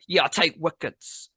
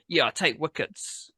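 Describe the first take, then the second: First: "Yeah, I take wickets" said higher, with a hard aggressive punch. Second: Said in the usual way. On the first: Acted. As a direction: spit the line out like a cocky rap boast. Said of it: "aggressive there". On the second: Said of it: "Sorry for the, uh, aggressive there".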